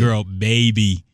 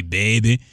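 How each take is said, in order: First: Put-on "baby" slow and carefully sounded out; proper pronunciation. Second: Imitating girlfriend's hood-accent "Baby". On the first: Shown as a demonstration. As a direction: correct her, stretching both syllables of "baby". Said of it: "You can say everything else right". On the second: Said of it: "like, that hood accent sometimes".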